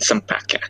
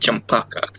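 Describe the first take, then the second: First: The name is said with English pronunciation. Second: The name is said with Indonesian pronunciation.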